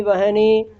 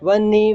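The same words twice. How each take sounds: First: "वहनी" as va-ha-nee; ह before न. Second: "वन्नी" with doubled न, no clear ह; ह dropped back. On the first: ("वहनी" में ह साफ़, न से पहले) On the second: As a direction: say "वन्नी" as van-nee. ("वन्नी" में न दोहरा, ह दबा हुआ) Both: Shown as a demonstration. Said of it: "वो आगे पीछे होते".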